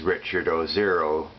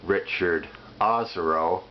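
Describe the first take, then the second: First: The surname's ending sounds like the word zero. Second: The surname's ending does not sound like zero. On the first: His forecasts are worth zero. "the proper pronunciation, ... the number zero" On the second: This is how the man himself says his name. "most people, including himself, pronounce it"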